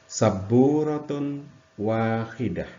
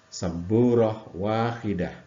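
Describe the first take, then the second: First: The first word ends with a full -tun ending. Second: The first word ends cut short in -h.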